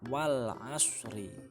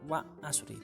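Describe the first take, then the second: First: The L sound is clearly pronounced. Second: The L sound is left out. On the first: The speaker calls it right. "ada alnya dibaca wal asri" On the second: The speaker calls it wrong. "bukan wa asri"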